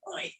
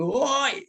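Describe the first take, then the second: First: Soft hushed "Oi" under the breath; quiet whispered "Oi"; whispered call. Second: Shouted call. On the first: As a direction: say "Oi" as a near-whisper, like a secret. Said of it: "bukan bisik-bisik". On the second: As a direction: yell "Woi" across a crowd. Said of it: "seruan yang sambil berteriak". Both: Shown as a demonstration.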